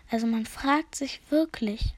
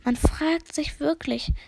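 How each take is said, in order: First: Said in the usual way. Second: Slow, drawn-out musing; dozy repeated musing; musing murmur. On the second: Acted. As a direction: linger over the words, higher. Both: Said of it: "murmelte immer wieder".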